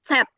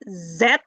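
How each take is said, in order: First: The letter begins with a ts sound. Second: The letter begins with a plain z sound. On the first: The speaker calls it right. "but Z. It's like you are saying T and S together" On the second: The speaker calls it wrong. "you don't say Z or Z"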